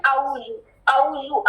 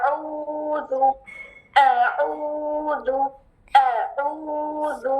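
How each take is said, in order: First: اعوذ said flat with a plain open vowel, no rounding; wrong pronunciation. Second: اعوذ with rounded lips, slow, soft, hollow vowel; correct recitation. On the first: Teacher imitating students' wrong recitation of اعوذ. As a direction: mimic the old careless reading. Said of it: "اعوذ نہیں ہے". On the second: Teacher modeling the correct Quranic recitation, slow and soft. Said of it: "کیسے پڑھنا ہے؟". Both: Shown as a demonstration.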